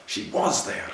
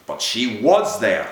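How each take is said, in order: First: Breathless whispered repeat; broken whisper. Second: Slow, louder groan of despair. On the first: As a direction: whisper it to yourself, beaten. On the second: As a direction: drag it out, groaning in anguish. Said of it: "he groaned to himself". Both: A narrator's reading.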